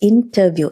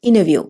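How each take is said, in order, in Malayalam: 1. ഇത് സാധാരണ ഇംഗ്ലീഷ് ഉച്ചാരണത്തിൽ പറയുന്നു. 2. ഇത് അമേരിക്കൻ രീതിയിൽ, t ഒഴിവാക്കി പറയുന്നു.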